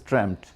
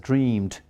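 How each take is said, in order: First: It is said as the irregular British form. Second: It is said as the regular American -ed form. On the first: "in British English it is dreamt" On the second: "in American English, they are pronounced as dreamed"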